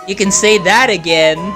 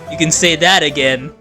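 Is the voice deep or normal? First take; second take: normal; deep. First: It is said in a normal speaking voice. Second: It is said in a much deeper voice. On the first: The speaker calls it wrong. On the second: The speaker calls it right.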